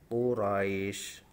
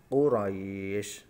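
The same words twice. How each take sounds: First: The vowel before the final sound is held briefly. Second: The vowel before the final sound is held moderately. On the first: "Ini yang contoh satu alif" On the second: "dua alif contoh"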